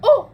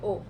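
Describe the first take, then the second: First: It is said with excited, lively energy. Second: It is said flat, without energy.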